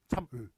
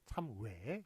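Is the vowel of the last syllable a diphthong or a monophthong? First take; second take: monophthong; diphthong. First: The last vowel is one steady pure vowel. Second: The last vowel glides like a w-sound. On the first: This is the original standard pronunciation. "이런 식으로 발음을 해야 원래 맞다는 거예요" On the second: This is how everyone actually says it. "다 어떻게 발음해요? 예, 참외 이런 식으로"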